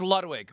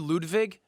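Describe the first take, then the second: First: The name is said with an American pronunciation. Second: The name is said with a German pronunciation. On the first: This is the everyday form the speaker uses. "It's Ludwig" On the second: This is the original, strict form of the name. "it's actually Ludwig. If we're going hard"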